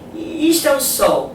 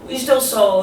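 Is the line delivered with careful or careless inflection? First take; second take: careful; careless. First: The line is delivered with purposeful, communicative inflection. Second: The line is tossed off with flat, careless inflection. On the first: The line reaches the listener. The speaker calls it right. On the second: The line is thrown away. The speaker calls it wrong.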